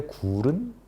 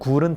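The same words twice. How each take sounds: First: The vowel in gul is long. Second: The vowel in gul is short. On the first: It means a cave. "동굴 할 때 굴은 장음입니다" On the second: It means an oyster. "먹는 굴은 단음이지만"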